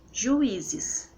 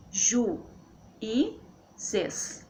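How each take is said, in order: First: Said in the usual way. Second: "Ju, I, zes" as three separate syllables. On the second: Shown as a demonstration. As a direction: pause between Ju, I and zes. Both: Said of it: "Então fica assim".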